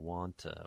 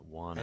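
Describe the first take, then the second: First: The T is kept before a schwa vowel. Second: The T is dropped, leaving a plain nasal. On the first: "the to becomes just a schwa" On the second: "we drop the T's"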